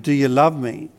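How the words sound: It is asked in a pleading, longing tone. The speaker wants something that may not be there. "Or we might ask it pleadingly"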